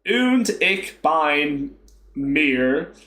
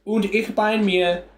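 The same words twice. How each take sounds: First: Very slow Texas drawl on German; Texas accent. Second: Careful, slow "Und ich bin mir", higher pitched; attempted German. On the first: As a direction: butcher the German with a drawn-out Texan twang. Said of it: "I'll put, like, a Texas accent on". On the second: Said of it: "how do you say that one". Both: Shown as a demonstration.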